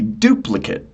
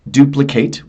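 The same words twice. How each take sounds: First: The last syllable is reduced to a weak vowel. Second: The last syllable is a full 'ate' sound. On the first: It is used as a noun. "So the noun would be duplicate" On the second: It is used as a verb. "I am actually uh, enunciating the eight at the end"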